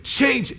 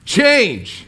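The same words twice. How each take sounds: First: The word is said as a desperate plea. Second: The word is yelled loudly.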